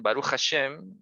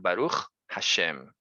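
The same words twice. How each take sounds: First: Said very fast with no pause between words. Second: Said clearly with a pause between words. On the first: The speaker calls it wrong. "muy, muy rápido" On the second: The speaker calls it right. "hay que hacer la pausa"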